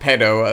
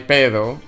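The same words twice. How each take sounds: First: The word is pronounced with English sounds. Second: The word is pronounced with Spanish sounds. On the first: It is a short form of an offensive word. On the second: It is a harmless word meaning fart.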